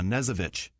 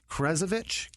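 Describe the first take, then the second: First: The name begins with an N sound, no K. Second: The name begins with a pronounced K sound. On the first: The speaker calls it right. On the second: The speaker calls it wrong.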